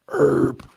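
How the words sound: It is said with an American pronunciation. "for Americans"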